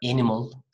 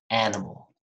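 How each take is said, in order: First: The first vowel is less open. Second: The first vowel is wide open. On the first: The speaker calls it wrong. "Not animal" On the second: The speaker calls it right. "but animal"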